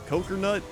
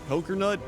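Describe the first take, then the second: Both takes have the same delivery.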